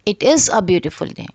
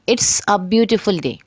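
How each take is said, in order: First: 'It is' is said as two full words. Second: 'It is' is shortened to 'it's'. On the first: This is the full form used in writing. "इसकी uncontracted form क्या होगी" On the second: This is the informal spoken form. "Contracted form है"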